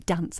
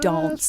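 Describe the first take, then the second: First: The word is said in a plain, unposh accent. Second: The word is said in a posh accent. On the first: This is how the speaker normally talks. "I'm not posh because I say dance" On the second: This is how posh people talk. "I don't say"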